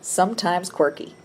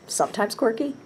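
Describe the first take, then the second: First: Said in the usual way. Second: Higher, rising mock disbelief; mock surprised question. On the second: Shown as a demonstration. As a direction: question the word quirky, amused. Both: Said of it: "I'll just read it again".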